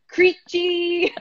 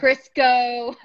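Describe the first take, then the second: First: The name ends with a 'see' sound. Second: The name ends with a 'koh' sound. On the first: The speaker calls it right. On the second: The speaker calls it wrong.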